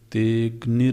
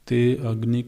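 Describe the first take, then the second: First: The 'a' is dropped and the words join. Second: The 'a' of agni is pronounced separately. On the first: The speaker calls it right. "जब तेग्निर बोला जा रहा है तो आप आ बीच में क्यों बोलते हैं?" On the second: The speaker calls it wrong. "ते अग्नि कौन बोल रहा है?"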